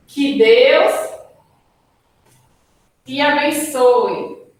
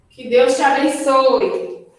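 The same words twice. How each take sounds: First: Exclamatory wish. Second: Said in the usual way. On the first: Shown as a demonstration. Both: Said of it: "A exclamação, por exemplo".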